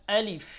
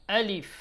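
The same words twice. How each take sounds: The two takes are said the same way.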